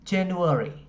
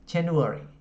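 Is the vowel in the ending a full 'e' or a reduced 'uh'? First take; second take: reduced uh; reduced uh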